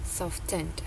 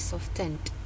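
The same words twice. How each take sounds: First: The ending is only a final consonant sound. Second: The ending is only a final consonant sound.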